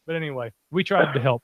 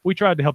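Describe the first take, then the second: First: Said in the usual way. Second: "We tried to help" louder, "tried" stressed; emphatic repeat. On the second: Real, not acted. Defending themselves to Lash, louder insistence.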